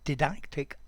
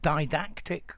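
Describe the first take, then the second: First: The first syllable is unstressed. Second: The first syllable is stressed.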